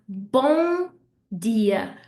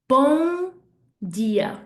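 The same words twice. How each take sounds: The two takes are said the same way.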